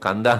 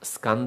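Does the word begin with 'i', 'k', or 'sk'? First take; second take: k; sk. First: It begins with 'k', dropping the 's'. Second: It begins with the cluster 'sk'. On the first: The speaker calls it wrong. "ಕಂದ ಅಂತ ಹೇಳಬಾರದು" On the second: The speaker calls it right. "ಸ್ಕಂದ ಅಂತಲೇ ಹೇಳಬೇಕು"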